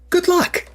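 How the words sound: It sounds bright and cheerful.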